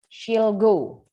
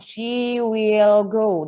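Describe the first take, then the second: First: The word will is contracted onto she. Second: The word will is said in full.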